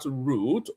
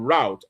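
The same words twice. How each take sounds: First: The word is said the non-American way. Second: The word is said the American way.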